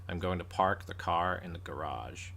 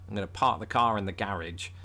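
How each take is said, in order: First: It is said in an American accent. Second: It is said in a British accent. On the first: "It's a mouthful, though, the way they say" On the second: "when the British say it"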